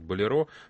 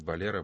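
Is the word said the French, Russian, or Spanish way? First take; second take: Russian; Spanish. First: The word is said the traditional Russian way. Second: The word is said the Spanish way. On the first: "традиционно в России, скажем, говорят болеро" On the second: "по-испански болеро"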